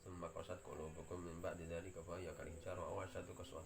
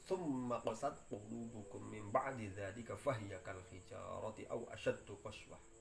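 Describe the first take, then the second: First: It is recited weakly, without force. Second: It is recited forcefully, with strong emphasis. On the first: The memorizer lacks firm resolve. The speaker calls it wrong. "Ini jenengane menghafalkan dengan lemah" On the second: The memorizer has firm resolve. The speaker calls it right. "Itu ditekankan"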